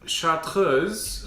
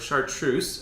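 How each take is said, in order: First: The word is pronounced with a French sound. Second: The word is pronounced with an English sound.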